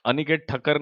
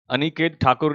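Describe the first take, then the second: First: "ठक्कर" said as Thakkar with a short a and a doubled hard k; corrected "ठक्कर" with a crisp kk; corrected surname. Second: First try "ठाकुर" before the correction; misread surname. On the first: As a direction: fix it to "ठक्कर", snap the double k. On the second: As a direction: stumble into "ठाकुर", long first vowel. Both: Shown as a demonstration. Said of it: "Aniket ठक्कर ने ये कहा है".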